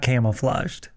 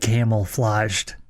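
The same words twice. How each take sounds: First: The first part sounds like camo, not camel. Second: The first part sounds like the word camel. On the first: The speaker calls it right. "not camouflaged" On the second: The speaker calls it wrong. "I could have swore you said camouflaged"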